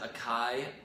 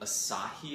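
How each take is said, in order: First: The middle consonant is a k sound. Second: The middle consonant is an s sound. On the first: The speaker calls it wrong. "I've always said acai" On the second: The speaker calls it right. "apparently Asahi is how you say it"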